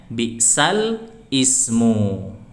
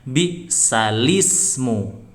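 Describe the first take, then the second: First: A glottal stop begins ismu, kept separate. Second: The l runs straight into ismu, no stop.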